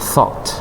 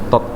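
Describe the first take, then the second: First: The first t has a little breathy h. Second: The first t is plain, with no breath. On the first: The speaker calls it right. "Tapi agak H dikit" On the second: The speaker calls it wrong. "T O T Indonesia, tot gitu ya"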